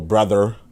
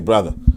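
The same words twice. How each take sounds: First: The word ends with a clear er sound. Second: The final r sound is dropped. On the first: "we don't really go brother" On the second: "We might say brother"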